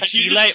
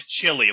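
First: The name is said with a Spanish accent. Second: The name is said with an English accent. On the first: The speaker calls it right. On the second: The speaker calls it wrong.

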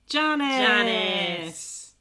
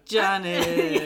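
First: The name is said in an excited, upbeat tone. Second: The name is said in a disappointed, deflated tone. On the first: Her arrival is welcome news. The speaker calls it wrong. "you sound excited about it" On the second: Her arrival is unwelcome. The speaker calls it right. "that's more like it"

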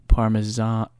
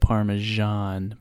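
First: The S is said as a Z sound. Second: The S is said as a soft J sound. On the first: The speaker calls it wrong. "but Parmesan? That's" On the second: The speaker calls it right. "I've always said Parmesan"

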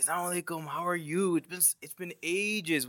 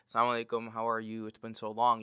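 First: The greeting is said with great enthusiasm. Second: The greeting is said flatly, without enthusiasm.

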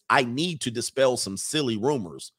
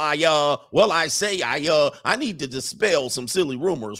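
First: It is read in the speaker's ordinary accent. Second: It is read in an exaggerated Southern drawl.

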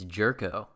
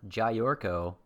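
First: The name begins with a 'jer' sound. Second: The name begins with a 'jay' sound. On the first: The speaker calls it right. "It's Jerko" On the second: The speaker calls it wrong. "and it's not Jayorko"

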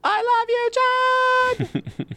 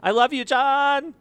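First: It is said like a call-out on a concert stage. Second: It is said casually, in a conversational voice.

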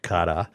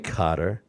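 First: The word ends with an open 'ah' sound. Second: The word ends with an R sound. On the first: "They end it with an A-H" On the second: "people say Qatar as if it's C-U-T-T-E-R"

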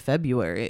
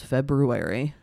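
First: The first r sound is dropped. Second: The first r sound is pronounced. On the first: The speaker calls it wrong. "a lot of people say February" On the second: The speaker calls it right. "it's February, and they forget that there are two R's"

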